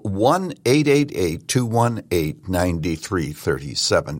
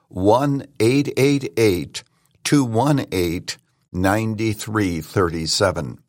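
First: The number is read quickly. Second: The number is read more slowly.

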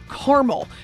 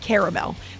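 First: The word is said with two syllables. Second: The word is said with three syllables. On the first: "Mom, there's another A in there. It's not caramel" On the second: "I say caramel. That's how I pronounce it"

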